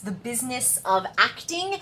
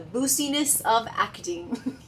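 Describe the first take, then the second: First: Business is said with its usual first vowel. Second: Business is said with a long oo vowel.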